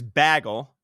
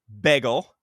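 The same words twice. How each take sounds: First: The first vowel is a short a. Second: The first vowel is a short e. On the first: "B A G G L E" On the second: "B E G G L E"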